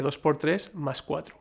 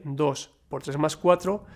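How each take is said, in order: First: Dos por tres as one group, break, then más cuatro; group dos por tres, dropping away on más cuatro; pause after TRES. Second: Dos, set apart by a pause, then por tres más cuatro as one group; group tres más cuatro, pausing after dos. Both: Shown as a demonstration. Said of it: "dependiendo de cómo sea su entonación".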